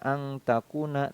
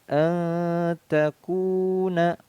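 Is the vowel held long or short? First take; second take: short; long. First: The long vowel is cut short. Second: The long vowel is held for two beats. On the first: The speaker calls it wrong. "tidak boleh dibaca angtakuna" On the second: The speaker calls it right. "harus dibaca lebih panjang"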